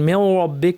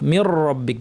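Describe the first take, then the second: First: The sound before rabbik sounds like a w. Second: The sound before rabbik is a pure r. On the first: The speaker calls it wrong. "ওয়াওয়ের মতো বলে ফেলেন" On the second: The speaker calls it right. "রটা হবে পিওর র"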